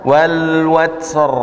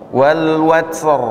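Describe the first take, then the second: Both takes have the same delivery.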